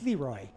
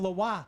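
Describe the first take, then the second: First: It is said with a northern E sound. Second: It is said with a French-style pronunciation. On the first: The speaker calls it right. "a northern E kind of sound on that" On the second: The speaker calls it wrong. "It would have been Leroy then if it was French"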